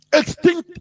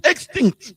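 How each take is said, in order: First: Extinct said high with a rising end; rising emphasis. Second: Extinct said with a firm falling end; falling emphasis. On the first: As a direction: lift Extinct up as if in disbelief. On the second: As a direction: drop extinct down like a final verdict. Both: Real, not acted. Repeats the word for emphasis.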